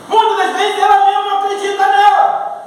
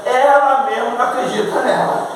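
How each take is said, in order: First: High, raised preacher's voice; emphatic preaching. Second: Said in the usual way. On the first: Real, not acted. Preacher repeating his point to the church, emphatic. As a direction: drive the point home at a high, sustained pitch.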